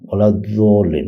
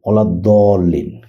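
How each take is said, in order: First: The second word begins with a j sound. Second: The second word begins with a d sound. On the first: "ওনাদের মুখ থেকে কোথাও কোথাও অনেক সময় উচ্চারণ করতে দেখি যে" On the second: "যেমন আমরা যেমন বলি যে"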